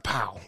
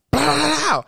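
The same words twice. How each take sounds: First: Low, soft little bang; small imagined pop. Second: High, rattling explosion noise; big firecracker burst. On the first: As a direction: play the firecracker down as a tiny pop. Expected small firecracker pop. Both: Retold or imitated.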